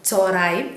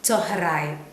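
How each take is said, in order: First: The middle h sound is dropped, said quickly. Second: The middle h sound is kept, said fully. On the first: This is how people usually say it in quick speech. "നമ്മൾ പറഞ്ഞു കേൾക്കുന്നത് ചോറായും ചോറായും എന്ന് നമ്മൾ പെട്ടെന്ന് പറഞ്ഞു പോവുകയാണ് പതിവ്" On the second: This is the actual proper pronunciation. "അതിൻ്റെ ശരിക്കുമുള്ള ഉച്ചാരണം"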